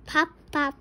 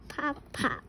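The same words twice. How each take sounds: First: Pops punched out louder; snappy popping sounds; cork pop. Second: Pops dropped to a soft little echo; soft cork pop. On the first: Parent reading a noise book to a child, popping pops out loud. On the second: Parent reading to a child, softer echoing pops. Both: Shown as a demonstration. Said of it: "He can sound like a cork".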